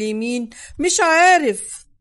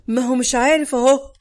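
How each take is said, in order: First: Said in the usual way. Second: A hint of a trap sprung, لعارف rising at the end; pointed, lurking tone. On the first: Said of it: "قلت لفادي بنبرة متربصة". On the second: A narrator's reading. Narrator throws Salah's words back at Fadi, pointedly. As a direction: press the words home with a knowing rise on عارف. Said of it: "بنبرة متربصة".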